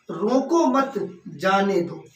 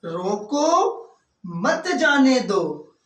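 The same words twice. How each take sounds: First: "रोको मत" as one unit, pause, then "जाने दो"; pause after मत. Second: Rising, drawn-out "रोको", pause, then "मत जाने दो"; pause after रोको. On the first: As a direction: break after मत, slow and deliberate. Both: Shown as a demonstration. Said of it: "अगर यहाँ पर हम एक कॉमा लगा दें".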